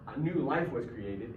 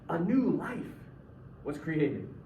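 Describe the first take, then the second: First: The phrase new life is not emphasized. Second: The phrase new life is strongly emphasized. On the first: The speaker calls it wrong. "It's not" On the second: The speaker calls it right.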